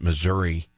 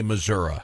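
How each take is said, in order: First: Missouri as mizz-URR-ee; urban-ad pronunciation. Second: Missouri as mizz-URR-uh; rural-ad pronunciation. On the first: Host describing urban campaign ads, Missouri with ee ending. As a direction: end Missouri on a clear EE. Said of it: "make sure the politician pronounces it". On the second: Host describing rural campaign ads, Missouri with uh ending. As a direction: swap the last sound of Missouri to UH. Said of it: "they will change the pronunciation". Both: Shown as a demonstration.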